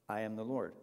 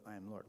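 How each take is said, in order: First: Said in the usual way. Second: Last echo of the refrain, dropped much softer; trailing off into a soft echo; fading away. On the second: Shown as a demonstration. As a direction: let it die away to almost nothing.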